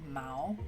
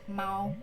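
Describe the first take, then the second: First: The pitch rises through the word. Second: The pitch stays level through the word. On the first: It means fur. "So you go up like mao" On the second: It means cat. "for a cat, we said mao"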